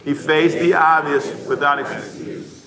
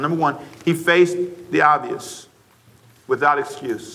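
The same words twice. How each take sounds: First: Slowly, every word spaced: "He faced the obvious without excuse."; slow unison recitation. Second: Said in the usual way. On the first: Shown as a demonstration. Pastor reciting the point with the church, slow and deliberate. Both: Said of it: "Say that with me, please".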